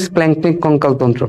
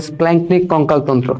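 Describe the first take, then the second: No difference in how they are said.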